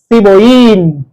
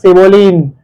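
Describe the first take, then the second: First: The double L is said like a Y. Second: The double L is said like an L. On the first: The speaker calls it right. "double L sounds like Y" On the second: The speaker calls it wrong. "not cebollín"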